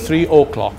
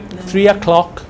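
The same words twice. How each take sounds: First: The 'o' is pronounced fully and clearly. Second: The 'o' is reduced to a weak 'a' sound. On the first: This is how it is read from the written form. The speaker calls it wrong. "not three o'clock" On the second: This is how it sounds in natural speech. The speaker calls it right. "So we say"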